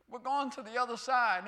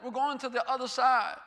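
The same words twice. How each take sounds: First: Said in the usual way. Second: Emphatic repeat. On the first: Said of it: "That means something". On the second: Shown as a demonstration. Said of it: "That means something when he says that".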